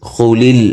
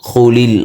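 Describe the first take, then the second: The two takes are said the same way.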